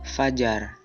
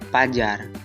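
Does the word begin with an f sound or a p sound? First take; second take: f; p. First: The word begins with an f sound. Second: The word begins with a p sound. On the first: The speaker is educated. The speaker calls it right. "Ragam bahasa terpelajar" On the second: The speaker is uneducated. The speaker calls it wrong. "Ragam tidak terpelajar"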